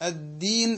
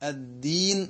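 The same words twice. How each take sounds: The two takes are said the same way.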